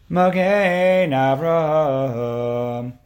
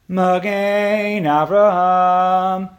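First: The ending sounds final and conclusive. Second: The ending sounds open and unfinished.

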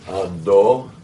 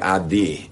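First: The second vowel is an o sound. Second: The second vowel is not an o sound. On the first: The speaker calls it right. "It's a cholim there" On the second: The speaker calls it wrong. "sometimes they'll say Adi instead of Ado"

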